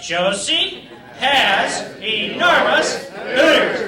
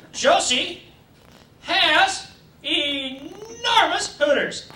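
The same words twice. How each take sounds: First: Slow sing-song chant, louder; class chant. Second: Drawn-out, very slow dictation. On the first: Teacher leading class in sing-song chant. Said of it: "say it with me". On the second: Teacher slowly dictating to class, drawn out. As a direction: lay each word down slowly for the class. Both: Pretend.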